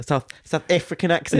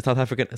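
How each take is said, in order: First: Higher, attempted South African accent; mock South African accent. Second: Said in the usual way. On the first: Shown as a demonstration. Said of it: "just in the South African". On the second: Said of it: "Do you want to record that again".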